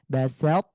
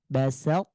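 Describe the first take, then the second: Both takes have the same delivery.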